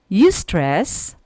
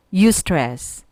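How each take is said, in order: Both takes have the same delivery.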